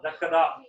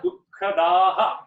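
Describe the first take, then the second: First: The word stops short with no final 'aha'. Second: The final visarga is sounded as a clear 'aha'. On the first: The speaker calls it wrong. "Not dakkada. Don't stop there" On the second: The speaker calls it right. "So it is sukha dukkhadaha, right?"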